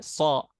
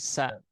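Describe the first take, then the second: First: The syllable is thick, with an o-like vowel. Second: The syllable is thin, with an open a vowel. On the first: The speaker calls it wrong. "tidak so" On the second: The speaker calls it right. "tapi sa"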